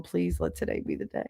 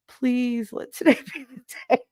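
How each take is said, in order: First: Hushed, softly begging; quiet plea. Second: High, mock-desperate begging with a laugh; desperate plea. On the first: Acted. Pregnant woman waking up hoping to deliver, quiet plea. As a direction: beg under your breath. Acts morning plea to give birth. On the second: Pregnant woman waking up hoping to deliver, laughing plea. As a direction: beg higher, breaking into laughter.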